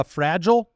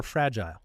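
First: First "fragile" as FRAJ-ul, second vowel swallowed; short pronunciation. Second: Second "fragile" as FRAJ-ile, like "aisle"; long-I pronunciation. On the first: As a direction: say "fragile" to rhyme with "agile". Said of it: "Which way do you pronounce it?". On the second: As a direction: say "fragile" to rhyme with "tile". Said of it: "Are you a fragile or fragile?". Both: Shown as a demonstration.

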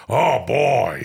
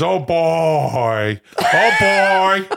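First: Low impression of an impression; Al Pacino doing Robert De Niro. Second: Drawn-out hammy exclamation, swelling louder; Robert De Niro doing Al Pacino. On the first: Pacino mimicking his friend Bobby, low mock De Niro. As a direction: drop the voice for a drawn-out actor impression. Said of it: "This is Al Pacino doing". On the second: Acted. De Niro imitating his friend Al, hammy and swelling. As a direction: build a mock actor holler. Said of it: "this is now De Niro doing".

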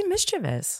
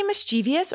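First: Mischievous said "MIS-chiv-us"; mischievous without the extra "ee"; preferred pronunciation. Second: Mischievous said "mis-CHEE-vee-us"; mischievous with an extra "ee"; contrasted pronunciation. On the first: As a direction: stress the start of mischievous, three syllables. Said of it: "I say mischievous". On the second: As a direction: stress the middle of mischievous, four syllables. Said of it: "Do you say mischievous or mischievous?". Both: Shown as a demonstration.

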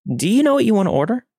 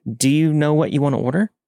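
First: Much higher, quick insistent question; smile dropped, insistent. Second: Higher, polite question lifting at the end; nervously polite. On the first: Waitress repeating herself to a leering customer, smile dropped, insistent. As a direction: press for the answer, pitched high and fast. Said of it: "I drop the smile". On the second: Waitress asking a pushy customer for his order, nervously polite. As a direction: keep the customer-service smile despite nerves. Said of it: "When I'm nervous, I giggle". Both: A narrator's reading.

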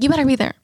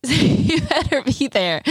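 First: Quick, lightly higher; a hint of the sweet lady; quoting the church lady. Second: Slow, higher, drawn-out playful warning; imitating the church lady. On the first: Quoting the lady's invitation, lightly higher. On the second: Quoting the lady insisting she come, slow and higher. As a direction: stretch it out like a sweet lady teasing. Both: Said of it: "she's like".

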